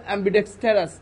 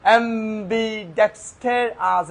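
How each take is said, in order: First: "অ্যাম্বিডেক্সটারাস" as one unbroken word; said all together. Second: "অ্যাম্বিডেক্সটারাস" slow as am, bi, dex, ter, as; syllable by syllable. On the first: Teacher assembling the syllables, "অ্যাম্বিডেক্সটারাস" said in one go. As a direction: join all five beats of "অ্যাম্বিডেক্সটারাস" without gaps. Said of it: "একসাথে বললে". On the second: Teacher easing a hard word, "অ্যাম্বিডেক্সটারাস" broken up slowly. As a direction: stretch out five separate beats of "অ্যাম্বিডেক্সটারাস". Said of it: "syllable ভেঙে ভেঙে পড়ে". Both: Shown as a demonstration.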